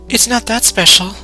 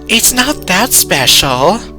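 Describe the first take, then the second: First: It is said in the reader's Yuri voice. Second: It is a deliberately bad imitation of Yuri's voice.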